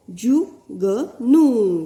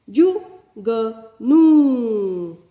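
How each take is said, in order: First: जु ग नू split slowly, each syllable apart; slow syllable reading. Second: जु ग नू split into slow separate syllables; slow syllable reading. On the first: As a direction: sound out जु ग नू for the class. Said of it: "इस प्रकार उच्चारण होगा". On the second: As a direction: sound out जु ग नू slowly, long नू. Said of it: "छोटा ऊ तथा बड़े ऊ". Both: Shown as a demonstration.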